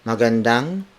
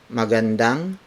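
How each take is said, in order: Both takes have the same delivery.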